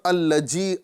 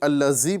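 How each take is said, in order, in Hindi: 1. बीच का व्यंजन 'j' ध्वनि है। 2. बीच का व्यंजन 'z' ध्वनि है। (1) "अल्लजी नहीं पढ़ना है" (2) "ना ही अल्लज़ी पढ़ना है"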